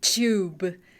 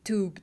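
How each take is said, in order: First: The word is said in a British accent. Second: The word is said in a non-British accent. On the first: "because of the British accent, they say tube" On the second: "they don't say tube"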